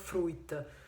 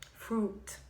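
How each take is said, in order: First: It is said with an extra 'i' vowel sound. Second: It is said without an 'i' vowel sound. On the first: The speaker calls it wrong. "it's not fruit" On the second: The speaker calls it right. "senza la I"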